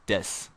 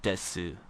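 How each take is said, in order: First: "des" short and soft with no final vowel; right form. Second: "desu" with its final u sounded, fading off soft; wrong form. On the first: Teacher reminding learners of the right form, soft. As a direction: say "des" quietly, cutting off the u. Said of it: "remember it's des". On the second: Teacher showing the form to avoid, trailing off. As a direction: say "desu" with the full u at the end. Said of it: "not desu". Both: Shown as a demonstration.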